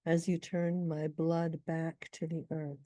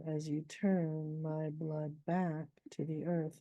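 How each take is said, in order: First: Said in the usual way. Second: Slow, "blood back" both stressed; slow metrical read showing the bacchic foot. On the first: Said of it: "it's a little bit different here". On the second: Shown as a demonstration. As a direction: give "blood back" two heavy beats. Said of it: "My blood back is what we call a bacchic foot".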